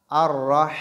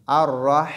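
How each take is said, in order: No difference in how they are said.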